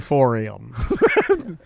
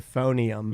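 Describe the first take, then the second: First: The third syllable begins with an r sound. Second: The third syllable begins with an n sound. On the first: The speaker calls it wrong. "not the euphorium. Like you're going like euphoria" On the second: The speaker calls it right. "It's the euphonium"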